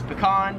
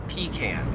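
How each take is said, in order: First: "pecan" as puh-KAHN; American pronunciation. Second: "pecan" as PEE-can; long PEE, flat a in "pecan"; Australian pronunciation. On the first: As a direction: stress a long KAHN in "pecan". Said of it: "most Americans would pronounce this". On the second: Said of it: "However, in Australia". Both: Shown as a demonstration.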